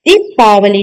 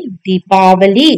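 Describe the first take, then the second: First: दीपावली with a short first i; wrong short i. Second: दीपावली with a long ee in दी; correct long i. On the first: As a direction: say दीपावली as "dipaavali". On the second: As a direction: say दीपावली slowly as "deepaavalee". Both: Shown as a demonstration. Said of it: "दीपावली नहीं".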